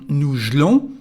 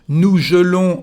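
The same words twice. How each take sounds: First: The first vowel of gelons is dropped. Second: The first vowel of gelons is fully pronounced.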